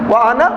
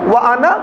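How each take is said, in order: Both takes have the same delivery.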